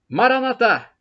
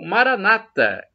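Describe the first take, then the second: First: The stress is on the last syllable. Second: The stress is on the second-to-last syllable. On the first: This is how Catholics say it. "nós com a tônica na última sílaba" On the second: This is how Protestants say it. "Eles com a tônica na penúltima sílaba"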